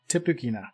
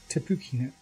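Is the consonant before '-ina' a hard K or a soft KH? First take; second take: hard K; soft KH. First: The consonant before -ina is a hard K. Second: The consonant before -ina is a soft KH. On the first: "that was a hard K I just said" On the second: "the H is like a K H"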